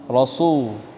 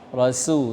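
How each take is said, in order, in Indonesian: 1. Bunyi s-nya berat, s tebal. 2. Bunyi s-nya ringan, s biasa. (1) "bukan ra, rasul ... bukan sad" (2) "tapi ra, rasul sin"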